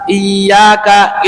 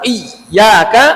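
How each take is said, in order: First: The ya sound is stretched out long. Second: The doubled ya is pressed until the voice stops. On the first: "itu merubah makna. Kenapa? Karena memanjangkan ya" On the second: "berarti dia mensyiddahkan iya yang sifatnya lin, itu tidak boleh"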